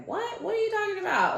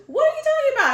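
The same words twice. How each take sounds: First: Very high-pitched puzzled question; baffled mom. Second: Shrieked, very high and loud mock outrage; mom impression. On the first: Retold or imitated. Mom asked about a coin on the phone, baffled. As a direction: imitate a mom's high, startled confusion. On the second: Daughter mimics mom's phone reaction, hammed-up loud disbelief. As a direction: blow it up into a loud, squawking mom. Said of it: "if you, anybody knows my mom".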